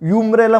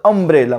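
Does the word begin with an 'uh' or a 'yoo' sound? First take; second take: yoo; uh. First: The word begins with a 'yoo' sound. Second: The word begins with an 'uh' sound. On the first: The speaker calls it wrong. "युम्ब्रेला म्हणतो कधी नाही" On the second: The speaker calls it right. "आपण काय म्हणतो अम्ब्रेला"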